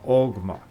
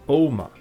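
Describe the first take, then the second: First: It is said with an Old Gaelic pronunciation. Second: It is said with a modern Gaelic pronunciation.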